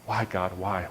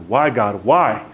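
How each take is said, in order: First: Low, subdued retold plea; softer, lower self-questioning; muttering to himself. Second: Anguished plea, suddenly louder; acted, forceful outburst of questioning; asking out loud. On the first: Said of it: "muttering to myself". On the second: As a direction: cry out to God in frustration. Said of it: "began to ask out loud".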